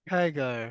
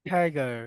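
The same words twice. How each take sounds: No difference in how they are said.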